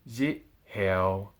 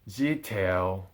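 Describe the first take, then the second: First: The two words are said apart. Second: The two words run together as one. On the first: The speaker calls it wrong. "Not zit, heo" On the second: The speaker calls it right. "but ziteo"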